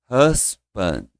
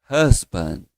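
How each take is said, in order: Both takes have the same delivery.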